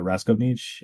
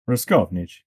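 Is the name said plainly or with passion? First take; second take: plainly; with passion. First: The name is said plainly, without passion. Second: The name is said with passion.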